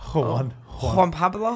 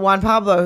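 First: The name is said in a Spanish accent. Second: The name is said in a plain accent.

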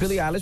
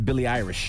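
First: The surname is said with an L sound. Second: The surname is said with an R sound. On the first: The speaker calls it right. "she corrected me" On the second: The speaker calls it wrong. "I pronounced the name as [name]"

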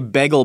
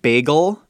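First: The word is said loosely and less fully. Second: The word is said carefully and fully. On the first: "But then I say bagel bite" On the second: "I enunciate bagel"

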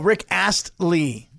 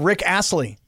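First: The T in Astley is clearly pronounced. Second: The T in Astley is dropped. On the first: The speaker calls it right. "you got to put in the T" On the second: The speaker calls it wrong. "You just said Rick Astley"

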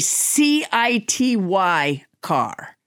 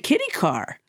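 First: The first word starts with an S sound. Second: The first word starts with a K sound. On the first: The speaker calls it right. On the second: The speaker calls it wrong.

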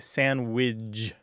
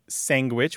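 First: It is said ending in widge instead of witch. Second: It is said with a g sound after the n. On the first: "widge at the end instead of witch at the end" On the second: "which you point out"

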